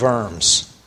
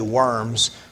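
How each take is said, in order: First: The word begins with a V sound. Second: The word begins with a W sound. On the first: The speaker calls it right. "it's really pronounced the W with a V" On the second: The speaker calls it wrong. "We would say worms"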